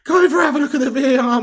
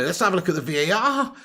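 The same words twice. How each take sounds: First: High, loud, fast urgent plea; pleading with the referee. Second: Said in the usual way. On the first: Real, not acted. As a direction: yell at the ref to check VAR.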